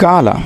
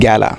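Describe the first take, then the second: First: The first vowel is an open ah sound. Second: The first vowel is like a in cat. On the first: The speaker calls it right. "এটির উচ্চারণ হবে গালা" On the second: The speaker calls it wrong. "Not গ্যালা"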